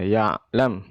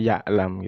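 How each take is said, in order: First: The middle consonant is a strong, heavy throat sound. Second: The middle consonant is read as a plain vowel. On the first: The speaker calls it right. "ain, huruf yang berat ya, dikuatkan baca ya'lam" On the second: The speaker calls it wrong. "Biasanya sering salah bacanya ya'lam gitu ya, dibaca alif"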